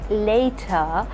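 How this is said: The T is crisp and the R is silent. "for British it would be like"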